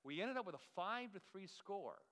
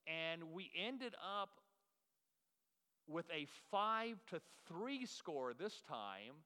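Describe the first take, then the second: First: Said in the usual way. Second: Slow build, long pause before the score; dramatic pause. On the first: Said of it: "This is called a dramatic pause right now". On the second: Shown as a demonstration. Preacher teasing the congregation with a slow dramatic pause. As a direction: hold the pause, then land the score slowly. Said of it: "This is a dramatic pause".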